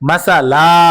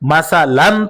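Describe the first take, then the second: First: The word ends with a drawn-out a vowel. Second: The word ends with a short a and n. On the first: The reader stops at this word. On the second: The reading continues without stopping.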